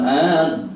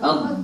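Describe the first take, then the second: First: The vowel is drawn out long before the consonant. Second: The vowel is short, going straight to the consonant. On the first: The speaker calls it wrong. "Jangan dipanjangkan a-nya, kata oh, bukan ad gitu ya" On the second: The speaker calls it right. "Langsung ad"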